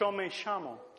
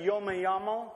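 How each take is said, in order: First: It is said in an Argentinian Spanish accent. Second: It is said in a general Latin American accent. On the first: "that would be how they'd say it in Argentina" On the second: "that's how they say it in Mexico and Honduras and Ecuador and Colombia"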